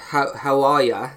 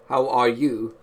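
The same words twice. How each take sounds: First: Clipped-together "are ya", you reduced to ya; American pronunciation. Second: "are you" said in full; English pronunciation. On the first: Showing friends American versus English, "are ya" run together. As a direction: say "are ya" casually, you weakened to ya. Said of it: "typical, uh, an American English difference". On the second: Showing friends the difference, "are you" fully pronounced. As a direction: give "How are you" with each word separate and a full you. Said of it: "That's, like, the way you say it". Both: Shown as a demonstration.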